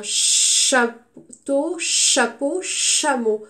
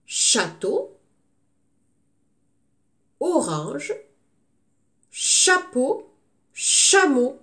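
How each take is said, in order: First: Château, chapeau, chameau with the first syllable cha pressed; first syllable stressed. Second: Château, orange, chapeau, chameau read out with pauses; words read out clearly. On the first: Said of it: "Alors écoutez bien". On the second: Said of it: "On cherche toujours l'intrus". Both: Shown as a demonstration.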